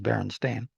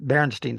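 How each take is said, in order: First: The last syllable is said as 'stain'. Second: The last syllable is said as 'steen'. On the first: This is the name as it is actually spelled. The speaker calls it right. "but it looks like it's Berenstain" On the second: This is how the speaker had always thought it sounded. The speaker calls it wrong. "that Berenstein spelling is the way I thought it was pronounced"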